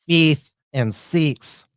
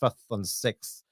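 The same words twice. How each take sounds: First: The vowels sound like an Australian accent. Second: The vowels sound like a New Zealand accent. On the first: "like we do" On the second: "the New Zealander pronunciation"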